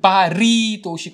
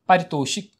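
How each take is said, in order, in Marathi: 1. 'ri' नंतर थोडासा विराम आहे. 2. शब्द पटकन म्हटला जातो, मध्ये विराम नाही. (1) "असं पारितोषिक असं नाही होत" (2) "तसं पारितोषिक"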